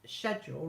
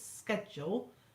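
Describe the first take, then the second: First: The word begins with a 'sh' sound. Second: The word begins with an 'sk' sound. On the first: "write S C H" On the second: "write S K"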